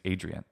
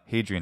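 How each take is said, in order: First: The name begins without an h sound. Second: The name begins with an h sound. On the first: The speaker calls it right. "it's Adrian" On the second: The speaker calls it wrong. "It's not Hadrian"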